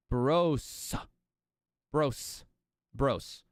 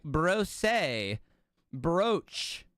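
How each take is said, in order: First: "bros" said with a long O and a plain S, rhyming with gross; "bros" like gross, one syllable, S at the end; correct pronunciation. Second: "Brose, brooch." said the way others mangle it; "brooch" with a fancy foreign ending; wrong fancy pronunciation. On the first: Shown as a demonstration. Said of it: "That's how you say it". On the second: Retold or imitated. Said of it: "And they're like".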